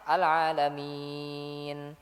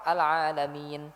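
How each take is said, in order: First: The vowel before the final n is held moderately long. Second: The vowel before the final n is held briefly. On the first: "Atau empat harokat sekalian" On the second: "kalau dua harokat"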